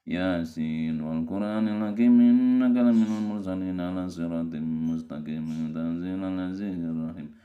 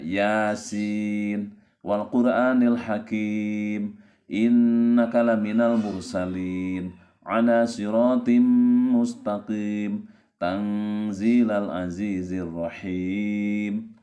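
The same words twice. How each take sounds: First: The letters are slurred together and indistinct. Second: Each letter is articulated clearly and distinctly. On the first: The speaker calls it wrong. "seperti ini bacanya ... itu kan tidak jelas" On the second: The speaker calls it right.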